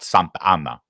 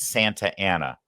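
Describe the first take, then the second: First: The name is pronounced the Spanish way. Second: The name is pronounced the English way. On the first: The place sounds like a town in Mexico. The speaker calls it wrong. "not Santa Ana" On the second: The place is the city in California. The speaker calls it right. "and it's Santa Ana"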